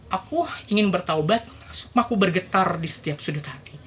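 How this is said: It is halting and hesitant, with stumbling words. The speaker is unsure and bewildered. "itu adalah ekspresi bingung"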